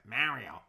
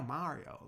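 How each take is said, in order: First: The name has a thick New York accent. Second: The name has no New York accent. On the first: "I said it with a thick New York accent" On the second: "he was always like, no"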